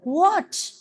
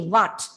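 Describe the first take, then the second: First: The w is said with rounded lips. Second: The w is said with an open, unrounded mouth. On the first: The speaker calls it right. "when you keep your mouth rounded and ask what" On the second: The speaker calls it wrong. "We just open our mouth and say what"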